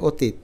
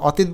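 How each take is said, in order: First: অতীত with a rounded 'o' first vowel; natural pronunciation. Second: অতীত with an open 'aw' first vowel; spelling pronunciation. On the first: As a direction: say অতীত as 'o-teet'. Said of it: "আমরা বলি অতীত". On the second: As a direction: read অতীত as 'aw-teet'. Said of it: "আমরা তো অতীত বলি না". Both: Shown as a demonstration.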